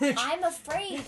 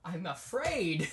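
First: Loud, slow, high mock-dramatic. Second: Loud, slow, mock-dramatic line. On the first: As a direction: echo it with a theatrical flourish. Repeats dramatically. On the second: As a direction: say it like a melodrama.

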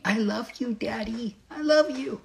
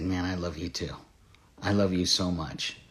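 First: Put-on tiny, high, soft toddler voice; little angel daughter. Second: Low, hushed, tender reply; tender father. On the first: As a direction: imitate a little girl sweetly telling her dad. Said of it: "this little angel wanting to hug me". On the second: Retold or imitated. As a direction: speak softly as a dad hugging his little girl. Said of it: "I knelt down and I hugged her".

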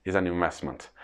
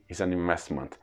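The two takes are said the same way.

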